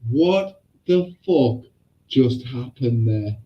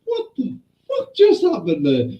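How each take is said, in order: First: Slow, spaced-out disbelief; stunned teacher. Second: High-pitched retold disbelief; stunned teacher. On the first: Retold or imitated. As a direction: imitate a teacher drawing out each word. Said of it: "our teacher went". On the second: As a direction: imitate a teacher aghast, pitched up. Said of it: "Even our teacher went there going".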